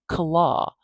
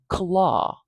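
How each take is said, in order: First: A short vowel separates the k and l sounds. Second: A short vowel separates the k and l sounds.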